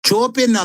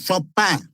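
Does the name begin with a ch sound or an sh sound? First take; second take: ch; sh. First: The name begins with a ch sound. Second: The name begins with an sh sound. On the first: The speaker calls it wrong. "ಚೋಪಿನ್ ಅಲ್ಲ" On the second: The speaker calls it right.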